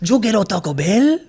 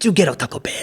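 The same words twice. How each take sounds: First: It has a heavy, exaggerated Mexican accent. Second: It has a lighter, toned-down Mexican accent.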